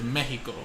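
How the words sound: It is pronounced with a Spanish accent. The speaker calls it right. "the proper way to say it is Mexico"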